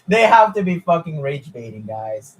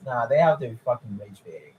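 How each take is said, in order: First: Said through laughter, a bit louder; laughing disbelief. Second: Said in the usual way. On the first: Real, not acted. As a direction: laugh while you accuse them. Laughing at absurd fan claim.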